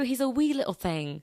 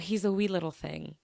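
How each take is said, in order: First: It is said in a put-on foreign accent. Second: It is said in the speaker's ordinary accent. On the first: The speaker calls it right. "you got to say it with the accent" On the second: The speaker calls it wrong. "you can't just say"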